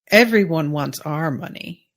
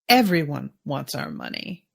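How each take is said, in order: First: The stress is on "our". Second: The stress is on "everyone".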